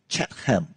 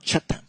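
First: The second part is said as a full 'ham'. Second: The second part is reduced to a weak 'um'. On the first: It follows the Cantonese transliteration. The speaker calls it wrong. "in the Cantonese transliteration of the word, it is actually Chatham" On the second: It is the English pronunciation. The speaker calls it right. "instead of Chatham"

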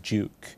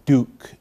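First: Duke is said with an English pronunciation. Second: Duke is said with an American pronunciation. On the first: The speaker calls it right. "the correct original English pronunciation is Duke" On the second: The speaker calls it wrong. "as Americans would say"

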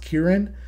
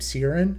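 First: The name begins with a K sound. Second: The name begins with an S sound. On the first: "I looked up on Google how it's pronounced, and it's pronounced Kieran" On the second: "when I first read this book, I pronounced his name Siren"

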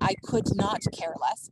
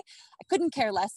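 First: Could and not are said as two full words. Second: Could and not are contracted into couldn't. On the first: The speaker calls it wrong. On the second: The speaker calls it right.

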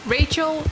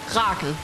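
First: The name is pronounced the English way. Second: The name is pronounced the Danish way. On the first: The speaker calls it right. "I like the name in English" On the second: The speaker calls it wrong. "if you were to say Rachel in Danish or pronounce it in Danish, it would be Rachel"

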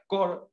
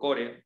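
First: The word has an English pronunciation. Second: The word has a Spanish-style pronunciation. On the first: "En inglés la palabra es core" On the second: "yo le digo core, un poquito más criollo"

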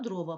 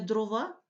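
First: The stress follows the Ukrainian stress pattern. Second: The stress follows the Russian stress pattern. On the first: The speaker calls it right. "правильно" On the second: The speaker calls it wrong. "Не"

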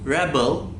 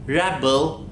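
First: The stress is on the first syllable. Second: The stress is on the second syllable. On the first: It is used as a noun. "yine R şeklinde telaffuz ediyoruz" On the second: It is used as a verb. "ikinci kısım bel kısmı vurgulu söyleniyor"

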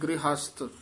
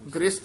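First: An h sound is heard in the middle. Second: No h sound is heard in the middle. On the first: The speaker calls it right. "ਗ੍ਰਹਸਥ ਬੋਲਣਾ। ... ਹਾਹਾ ਵੀ ਵਿੱਚ ਹੈ ਨਾ।" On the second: The speaker calls it wrong. "ਗ੍ਰਸਤ ਨਹੀਂ ਕਹਿਣਾ"

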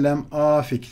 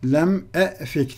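First: The second word begins with an 'a' vowel. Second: The second word begins with an 'e' vowel. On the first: The speaker calls it right. "Yerine lem afik denir" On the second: The speaker calls it wrong. "lem e'fik denmez"

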